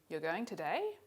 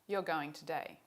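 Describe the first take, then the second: First: It is said with a question melody. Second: It is said with a statement melody. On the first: It asks a question. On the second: It states a fact.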